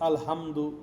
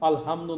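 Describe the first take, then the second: First: The h sound is soft and light. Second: The h sound is soft and light.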